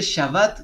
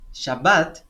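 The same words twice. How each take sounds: First: The b sound is light and soft. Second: The b sound is hard and strong. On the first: It means he rested. "como más ligero, la B" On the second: It names the day of rest. "la B como de burro o de bombero, un poco más fuerte"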